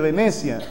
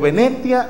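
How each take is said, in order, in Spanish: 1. Se dice con acento mexicano. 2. Se dice con acento español de España. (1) "en vez de Venecia" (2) "Acento español, y dijo Venecia"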